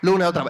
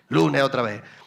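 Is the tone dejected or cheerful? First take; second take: cheerful; dejected. First: It is said in a cheerful, upbeat tone. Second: It is said in a weary, dejected tone.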